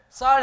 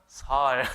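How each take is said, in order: First: The first consonant is a tense, stiff s. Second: The first consonant is a plain, soft s. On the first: The speaker calls it right. "쌀 해보세요" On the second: The speaker calls it wrong. "그랬더니만 살"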